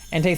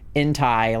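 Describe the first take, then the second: First: The second syllable sounds like 'tay'. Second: The second syllable sounds like 'tie'. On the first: "sounds like enter" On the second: "like hentai"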